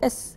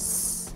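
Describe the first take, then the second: First: A vowel comes before the hissing consonant. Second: Only the hissing consonant is heard. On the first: This is the letter's name. The speaker calls it wrong. "كان قديما نقول أس" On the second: This is the letter's sound. The speaker calls it right. "حاليا صوت الحرف بيكون س"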